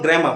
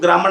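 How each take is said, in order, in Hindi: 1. r की आवाज़ silent रहती है। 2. r की आवाज़ साफ़ बोली जाती है। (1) "उसको हम ग्रामर बोलते हैं" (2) "ग्रामर नहीं बोला जाता है"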